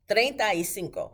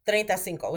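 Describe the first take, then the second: First: It is said slowly and carefully. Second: It is said quickly, run together.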